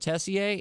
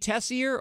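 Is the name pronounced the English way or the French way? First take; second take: French; English. First: The name is pronounced the French way. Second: The name is pronounced the English way.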